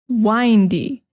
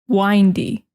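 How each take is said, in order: The two takes are said the same way.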